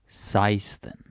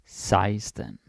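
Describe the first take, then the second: Both takes have the same delivery.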